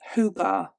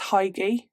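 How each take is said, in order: First: The first vowel sounds like 'oo'. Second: The first vowel sounds like 'eye'. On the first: This is how the word is really pronounced. The speaker calls it right. "I believe it's Hugar" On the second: This is how it was guessed from reading it. The speaker calls it wrong. "I read the word as Heige"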